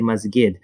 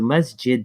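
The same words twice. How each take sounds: First: The middle consonant is a hard g sound. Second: The middle consonant is a j sound. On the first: The speaker calls it wrong. "they say masjid. Uh, so the jim becomes a ga" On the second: The speaker calls it right. "so the jim becomes a ga when that is actually a jim"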